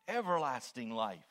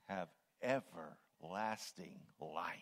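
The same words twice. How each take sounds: First: EVERLASTING louder, in one falling sweep; emphasis on EVERLASTING. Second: Slow right down, spacing out "everlasting life"; emphasis on EVERLASTING. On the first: Preacher chewing on the verse, firm stress on everlasting. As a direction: say "everlasting" firmly and louder, without breaks. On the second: Preacher chewing on the verse, slow weight on everlasting. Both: Shown as a demonstration. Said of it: "emphasizing different words".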